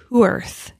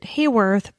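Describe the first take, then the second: First: The first syllable does not sound like 'hay'. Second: The first syllable sounds like 'hay'. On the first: The speaker calls it right. "but it's Hworth" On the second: The speaker calls it wrong. "I pronounced it Hayworth"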